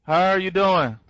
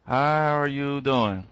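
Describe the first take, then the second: First: Said in the usual way. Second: Slow, lower, softer "How are you doing?"; drawn-out greeting. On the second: Acted. Trainer re-greeting Tish in a chat: slow, low drawl. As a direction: stretch it out low and easy like a crooner. Repeats the greeting slowly and deeply.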